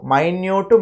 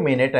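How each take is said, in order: First: Minute said "my-nyoot", drawn out. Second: Minute said "min-it", like the time unit. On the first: Teacher contrasting homographs, minute pronounced "my-nyoot". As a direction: say minute as my-NYOOT, meaning tiny. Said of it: "ఒకదాన్నేమో మైన్యూట్ అంటే". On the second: Teacher contrasting homographs, minute pronounced "min-it". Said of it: "ఒకదాన్నేమో మినిట్ అంటాం". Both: Shown as a demonstration.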